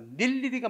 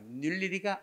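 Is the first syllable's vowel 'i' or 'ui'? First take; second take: i; ui. First: The first syllable has the vowel 'i'. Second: The first syllable has the vowel 'ui'. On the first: The speaker calls it right. "맞죠" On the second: The speaker calls it wrong. "아니다는 점"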